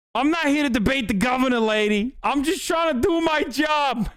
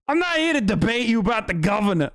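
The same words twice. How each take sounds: First: Quick, higher mock Midwestern cop, ending in a yell; a second try at the Midwestern cop accent, ending in a shout; hammed-up Midwestern cop accent, snapping "I'm just trying to do my job"; Midwestern cop impression. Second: Put-on quick first try at the Midwestern cop accent; a hesitant Midwestern cop imitation; half-hearted Midwestern cop accent; Midwestern cop impression. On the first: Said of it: "this guy's the peak fucking Midwestern cop". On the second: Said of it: "I can't even do his accent".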